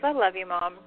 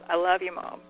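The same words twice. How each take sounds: First: It is said in a casual, light tone. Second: It is said in a serious tone.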